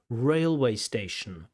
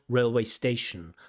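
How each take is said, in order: First: The stress is on the first word. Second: The stress is on the second word. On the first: The speaker calls it right. "the stress falls on the first word" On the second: The speaker calls it wrong.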